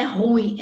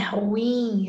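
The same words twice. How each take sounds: First: Ruim squeezed into one syllable, RUIM with weight on the U; wrong diphthong. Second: Ruim split as ru-IM, stress on IM; stress on last syllable. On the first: Teacher shows students the error to avoid, ruim stressed on RU. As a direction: say ruim as RÚim, loudly. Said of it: "não é ruim". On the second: Teacher corrects the error for students, ruim stressed on IM. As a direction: let IM carry the weight in ruim. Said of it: "é oxítona". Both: Shown as a demonstration.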